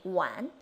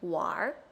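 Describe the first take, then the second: First: It ends plainly in n, without an r-sound. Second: It ends with a curled r-sound.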